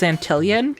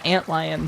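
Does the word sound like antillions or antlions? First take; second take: antillions; antlions. First: An extra syllable comes between ant and lion. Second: Ant runs straight into lions, no extra syllable. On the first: "we read it as Antillion" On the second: "saying it correctly as antlions"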